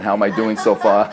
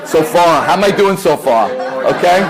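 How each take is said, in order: First: Asks through a chuckle; light laugh in the voice. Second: Higher and louder, calling out; louder repeat. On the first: Joking check with audience. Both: Real, not acted.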